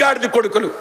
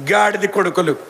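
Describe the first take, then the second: First: Said in the usual way. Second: గాడిద said lower and heavier, a deliberate repeat; low emphatic repeat. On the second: Shown as a demonstration. Preacher repeating the insult to the congregation, lower and heavier. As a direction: drop the voice and land on గాడిద. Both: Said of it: "తిట్టు కాదు ఇది".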